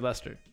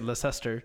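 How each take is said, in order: First: The name is said with letters dropped. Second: The name is said with its letters sounded out. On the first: This is how the name is actually said. The speaker calls it right. "You say Leicester" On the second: This is how the spelling reads. The speaker calls it wrong. "It has like the C and the S. You don't say Leicester"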